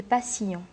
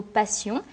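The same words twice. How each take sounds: First: "passions" split as pa-ssi-ons; diérèse. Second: Said in the usual way. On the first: Shown as a demonstration. Teacher scanning Baudelaire's verse, "passions" in three syllables, pa-ssi-ons. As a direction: sound the I and ON of "passions" as two separate syllables. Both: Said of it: "Le mot passion applique cette règle de la diérèse".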